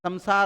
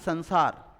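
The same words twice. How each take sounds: First: The nasal in the middle sounds like 'm'. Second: The nasal in the middle sounds like 'n'. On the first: The speaker calls it right. "मैं की बाती तो उच्चारित करोगे ना। तो शब्द क्या बनेगा? संसार होता है" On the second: The speaker calls it wrong. "ना कि संसार"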